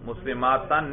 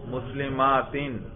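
First: The word ends without an i vowel. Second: The word ends with an i vowel. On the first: The speaker calls it wrong. "مسلماتن نہیں پڑھنا" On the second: The speaker calls it right. "اس کا نصب آتا ہی کس شکل میں ہے؟ کسرہ کی صورت میں"

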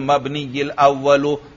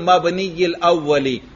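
First: The last word ends in a 'u' vowel. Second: The last word ends in an 'i' vowel. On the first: The adjective describes the first attribute of the noun. The speaker calls it right. "उस पर रफा है तो सिफत अल अव्वल पर भी क्या पढ़ेंगे रफा पढ़ेंगे" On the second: The adjective describes the first noun of that type. The speaker calls it wrong. "अल मबनी की सिफत हो तो तर्जमा होगा"

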